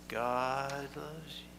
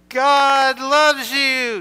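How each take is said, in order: First: Soft, slow, drawn-out hush; just above whisper. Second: Very loud, high, drawn-out yell; outside-voice yell. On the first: Leading children in telling the congregation, slow and hushed. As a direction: say it barely louder than a whisper. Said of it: "just a little bit louder than a whisper". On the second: Calling to a friend across the playground, full yell. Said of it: "use your outside voices and you yell". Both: Shown as a demonstration.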